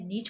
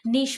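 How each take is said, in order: First: The word ends with a 'ch' sound. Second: The word ends with an 'sh' sound. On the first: This is the American English form. "American English में इसे नीच बोल सकते हैं" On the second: This is the British English form. "British English में इसे आप नीश बोल सकते हैं"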